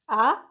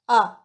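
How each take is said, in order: First: The pitch rises from middle to high. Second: The pitch falls sharply from high to low. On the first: It expresses an opinion or asks for more. "Second tone" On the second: It gives an answer or shows sudden understanding. "Fourth tone"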